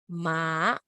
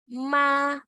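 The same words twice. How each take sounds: First: The pitch rises through the syllable. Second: The pitch stays high and level.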